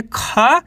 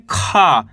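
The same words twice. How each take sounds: First: खा with the aa pulled long; stretched vowel. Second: Said in the usual way. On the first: Shown as a demonstration. Teacher showing students to stretch खा. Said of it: "इसको खींच के पढ़ेंगे". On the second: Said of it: "तो कैसे पढ़ेंगे?".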